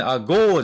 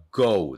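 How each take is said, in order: First: "ago" with a flat Japanese long "gō"; wrong long-o "ago". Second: "ago" with the o gliding into u; correct "ou" glide in "ago". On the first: Teacher showing learners the mistake, wrong long-o "ago". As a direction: say "ago" as katakana "agō", no glide. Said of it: "agoじゃないんですよ". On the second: Teacher correcting learners, gliding "ou" in "ago". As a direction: say "ago" as a-GOU, rounding off into u. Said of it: "おう、おうね". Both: Shown as a demonstration.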